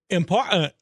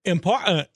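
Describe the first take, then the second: First: The middle T sound is dropped. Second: The middle T sound is dropped.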